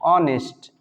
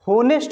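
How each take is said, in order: First: The word starts directly with a vowel sound. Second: The word starts with an audible h sound. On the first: The speaker calls it right. "इसको हमेशा ऑनेस्ट बोलते हैं" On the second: The speaker calls it wrong. "होनेस्ट नहीं बोलते हैं, जितने भी लोग होनेस्ट बोलते हैं वो गलत साउंड है"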